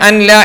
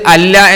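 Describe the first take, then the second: First: The n is sounded separately before the l. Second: The n merges fully into a doubled l. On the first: "അൻ ല എന്നത്" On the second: "അല്ല എന്നാകും"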